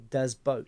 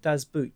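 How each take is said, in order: First: The second word has an 'oh' vowel, like boat. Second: The second word has an 'oo' vowel, like boot. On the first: The speaker calls it right. "You actually say Das Boat" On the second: The speaker calls it wrong. "you do not call it Das Boot"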